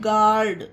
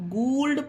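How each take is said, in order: First: The u is silent; the vowel is 'ah'. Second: The u is sounded as 'oo' after g. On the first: The speaker calls it right. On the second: The speaker calls it wrong.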